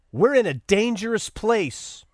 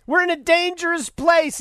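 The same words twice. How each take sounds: First: Said in the usual way. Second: Higher, pointed "We're in a dangerous place"; emphatic repeat. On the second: Retold or imitated. Host repeating the mayor's quote for effect, emphatic. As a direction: repeat "dangerous place" raised in pitch, driving it home.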